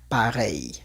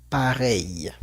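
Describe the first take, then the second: Both takes have the same delivery.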